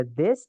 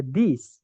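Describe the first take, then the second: First: "this" said with a short E vowel, like "des". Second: "these" said with an I vowel, like "dis". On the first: Teacher listing the two words for "ini" to students, "this" with E. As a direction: say "this" with an open E sound. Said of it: "itu bacanya E ya". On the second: Teacher listing the two words for "ini" to students, "these" with I. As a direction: say "these" with a clear I sound. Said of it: "itu bacanya I". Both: Shown as a demonstration.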